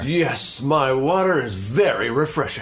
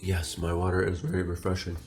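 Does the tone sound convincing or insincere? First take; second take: convincing; insincere. First: The tone sounds sincere and convincing. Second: The tone sounds insincere and unconvincing. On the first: The speaker is telling the truth. "Never mind, I believe him" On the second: The speaker may be lying. "That sounds like the tone of a liar"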